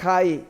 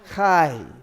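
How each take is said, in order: First: The vowel is a plain ah without a y-glide. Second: The vowel glides from ah into y. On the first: The speaker calls it wrong. "It's not chai" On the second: The speaker calls it right. "you got to get the y in there"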